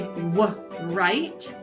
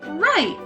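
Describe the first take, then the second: First: A w sound is pronounced before the r. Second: The word starts directly with the r sound. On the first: The speaker calls it wrong. "we don't say w right" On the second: The speaker calls it right. "we just say right"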